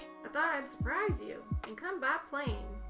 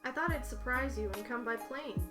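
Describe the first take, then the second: First: It is said in a put-on old man voice. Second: It is said in the reader's ordinary voice.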